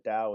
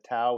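First: The word begins with a D sound. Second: The word begins with a T sound. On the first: "the Tao with a D" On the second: "the Tao with a T"

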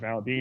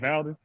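First: The second syllable has a long ee vowel. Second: The second syllable has a short e vowel. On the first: The speaker calls it wrong. "you ain't even got that many E's in your name" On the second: The speaker calls it right. "Y'all pronounced it right on the first time"

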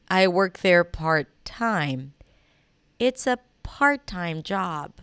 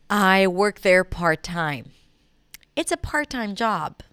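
The two takes are said the same way.

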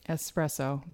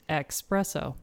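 First: The word begins with an 'es' sound. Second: The word begins with an 'ex' sound. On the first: The speaker calls it right. "Keep those Italians happy" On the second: The speaker calls it wrong. "that's how it's normally mispronounced with the X"

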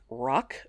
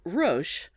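First: The name sounds like the word 'rock'. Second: The name does not sound like 'rock'. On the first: "some pronounce it more like rock" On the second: "but I'm not going to be one of those people"

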